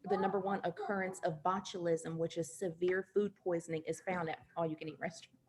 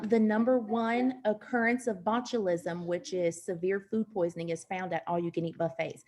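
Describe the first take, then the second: First: It is said at normal volume. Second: It is said louder than normal.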